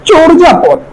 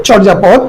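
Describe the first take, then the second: First: চর্যাপদ with চ rounded to "cho"; correct pronunciation. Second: Said in the usual way. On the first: Shown as a demonstration. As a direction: say চর্যাপদ slowly as "chor-ja-pod". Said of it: "এটা উচ্চারণ হবে". (চর্যাপদের চ "চো"-এর মতো উচ্চারণ) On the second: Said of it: "এবার প্রদত্ত শব্দ আছে".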